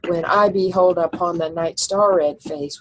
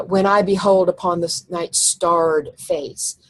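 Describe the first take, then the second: First: Starred said as a single syllable; one-syllable starred. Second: Night starred face, slow, with starred as star-red; two-syllable starred. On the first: Teacher showing the ten-syllable reading. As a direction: keep starred to one beat. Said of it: "but if you say starred, it's ten". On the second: Teacher showing the eleven-syllable reading. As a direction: stretch starred into two beats. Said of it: "would be eleven". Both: Shown as a demonstration.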